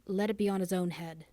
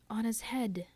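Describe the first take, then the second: First: Said in the usual way. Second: Whispered echo of "On his head", high and hollow; ghostly echo. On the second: Acted. The dim hall echoing Gabriel, whispered. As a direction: breathe it back like a distant echo. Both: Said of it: "echoed the dim hall".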